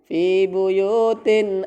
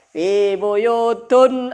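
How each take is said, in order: First: The second word ends with an in sound. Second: The second word ends with an un sound. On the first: The noun follows a preposition as grammar requires. The speaker calls it right. "Aslinya memang fi buyutin" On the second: The noun is read in the nominative ending instead. The speaker calls it wrong. "dia membacanya bukan fi buyutin ... tapi dia baca apa?"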